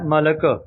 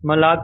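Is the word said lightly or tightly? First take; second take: lightly; tightly. First: The word is said lightly, with a soft consonant. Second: The word is said tightly, with a forceful consonant. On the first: The speaker calls it right. "ਪੋਲਾ ਜਿਹਾ ਬੋਲਣਾ ਹੈ" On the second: The speaker calls it wrong. "ਕੱਸ ਕੇ ਮਲਕ ਨਹੀਂ ਬੋਲਣਾ"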